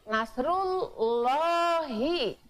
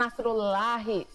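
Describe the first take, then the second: First: The l sound is heavy and full. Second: The l sound is thin and light. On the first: The speaker calls it right. "maka harus dibacanya nasrullahi" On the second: The speaker calls it wrong. "jangan nasrullahi, salah ya"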